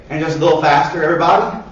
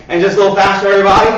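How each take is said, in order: First: Said in the usual way. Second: Rising louder toward everybody; building coach call. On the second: Shown as a demonstration. Coach urging kids to speed up, getting louder. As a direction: push the group, voice swelling on everybody.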